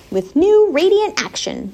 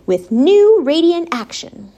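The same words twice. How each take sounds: First: Slow, higher-pitched reading; slow repeat. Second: Said in the usual way. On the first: A narrator's reading. Charlotte repeats the soap ad to herself, slowly. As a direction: read "new radiant action" slowly, weighing each word. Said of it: "repeated Charlotte slowly". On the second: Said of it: "Charlotte read the words".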